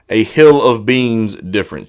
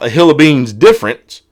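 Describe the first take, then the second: First: It is said slowly. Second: It is said at normal speed.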